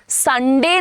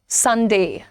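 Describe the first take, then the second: First: The final vowel stays plain without a glide. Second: The final vowel glides as a diphthong. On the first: The speaker calls it wrong. "संडे नहीं है" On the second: The speaker calls it right. "Proper diphthong"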